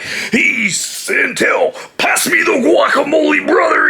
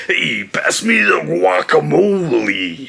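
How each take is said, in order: First: Hammed-up Macho Man demand; Macho Man promo voice. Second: Said in the usual way. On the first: Shown as a demonstration. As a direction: bellow it like a wrestling promo. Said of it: "he wasn't doing all that, like". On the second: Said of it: "it was just".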